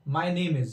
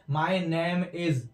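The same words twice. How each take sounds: First: Name with a long 'ay' vowel; correct pronunciation. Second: Drawn-out name said as 'naim', rhyming with ham; common mispronunciation. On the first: Shown as a demonstration. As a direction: say name to rhyme with game. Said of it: "my name होता है". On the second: Retold or imitated. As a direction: open 'a' in name, very slow. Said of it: "बहुत से लोग इसको बोलते हैं".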